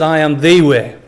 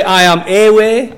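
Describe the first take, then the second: First: "the" said as a full "thee", lower voice; stress on THE. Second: "a" said as a full word, raised next to the corrected take; stress on A. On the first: Preacher correcting to what Jesus said, stressed THE. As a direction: lean on "the" as "thee", the one and only. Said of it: "He said, "I am the way". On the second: Preacher showing what Jesus didn't say, stressed A. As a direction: stress the article "a" as the wrong wording. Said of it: "He didn't say, "I am a way". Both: Shown as a demonstration.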